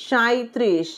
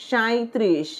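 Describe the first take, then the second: Both takes have the same delivery.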